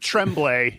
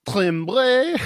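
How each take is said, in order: First: It is said with an American pronunciation. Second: It is said with a non-American pronunciation.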